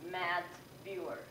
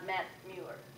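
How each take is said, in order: First: The vowel in the first word is long. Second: The vowel in the first word is short. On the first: The speaker calls it right. "I should pronounce it" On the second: The speaker calls it wrong. "not ... Too short"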